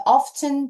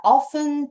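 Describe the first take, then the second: First: "often" with the t sounded, OF-ten; British-style pronunciation. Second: Said in the usual way. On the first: Shown as a demonstration. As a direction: pronounce the t in "often". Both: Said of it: "영국식 발음으로 often 이렇게 읽으셔도 돼요".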